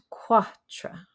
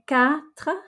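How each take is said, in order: First: The vowel sounds like English 'quart'. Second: The vowel does not sound like English 'quart'. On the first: The speaker calls it wrong. "not quatre. It's not as in quart or quarter" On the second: The speaker calls it right. "we say quatre"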